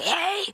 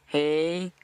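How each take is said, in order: First: It is said loudly and angrily. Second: It is said softly and calmly.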